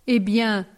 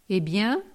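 First: "Eh bien?" with a firm falling tune, stress on eh; falling, insistent "Eh bien?". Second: Eh bien with a rising, puzzled tune; questioning rise. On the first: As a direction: press the point, "Eh bien?" falling flat. Curé insists on the point. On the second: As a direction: ask "Eh bien?" lifting up at the end as a real question. Curé asks what is wrong. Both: Acted.

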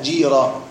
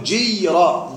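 First: جيرة as jī-ra, lower and smooth; correct long vowel. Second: جيرة with a hard held y, jiy-ra; over-pronounced sukun. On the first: Teacher corrects the wrong reading, smooth jī-ra in جيرة. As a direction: glide through جيرة with a pure long ī, no separate y. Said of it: "لا، جيرة". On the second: Teacher warns students against this reading, jiy-ra with pronounced sukun in جيرة. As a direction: drag out جيرة, sounding the silent sukun as jiy-ra. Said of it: "لا تقل جيرة". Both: Shown as a demonstration.

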